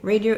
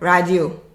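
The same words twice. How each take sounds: First: It is said with English pronunciation. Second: It is said with Haitian Creole pronunciation. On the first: "we'll say radio in English" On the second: "in Creole"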